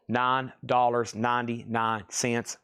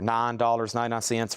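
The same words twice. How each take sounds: First: The phrase is said at a slower pace. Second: The phrase is said at a faster pace.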